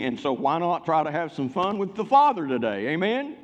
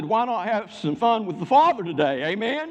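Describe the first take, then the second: First: Said in the usual way. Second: Higher, punchier call for an amen; rousing repeat. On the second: Real, not acted. Preacher asking the congregation again for an amen, insistent and rousing. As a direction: rouse the room, lifting the pitch on the question. Repeats it to get louder response.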